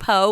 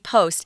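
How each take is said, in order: First: It is said as 'po' without a final consonant. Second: It is said as 'post' with final consonants. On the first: This is how the learners' community says it. "you guys say one po" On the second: This is how native English speakers say it. "but we say post"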